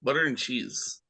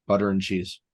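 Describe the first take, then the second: First: Flat Midwestern "butter and cheese"; Wisconsin accent. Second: Put-on Chicago accent. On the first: Pretend. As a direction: say it like a Wisconsin local. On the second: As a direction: say it like a Chicago local. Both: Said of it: "It's almost Wisconsin sounding".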